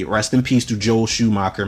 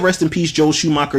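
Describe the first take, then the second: First: Soft, quiet, sincere condolence; respectful. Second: Higher, knowing mock condolence; mock tribute. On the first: Real, not acted. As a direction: pay real respect, softer. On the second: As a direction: say it with a wink to fans. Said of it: "if I said".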